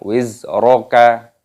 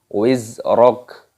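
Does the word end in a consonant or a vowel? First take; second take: vowel; consonant. First: The word ends with a short vowel. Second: The word ends on a consonant. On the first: The speaker calls it wrong. "Jangan wizroka" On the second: The speaker calls it right. "Ketika berhenti tanda waqaf, maka di sini dimatikan kafnya"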